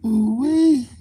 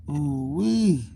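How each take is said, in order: First: High, loud delighted ooh-wee; excited ooh-wee. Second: Said in the usual way. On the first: Real, not acted. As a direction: squeal it out in delight. Reaction exclamation, then repeat.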